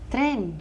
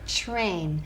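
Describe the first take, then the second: First: The vowel is a short 'eh' sound. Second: The vowel is a gliding 'ay' sound. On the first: The speaker calls it wrong. "A lot of people say tren" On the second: The speaker calls it right. "in English we have to say train"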